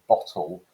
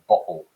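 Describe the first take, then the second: First: The middle t is clearly pronounced. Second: The middle t is a glottal stop.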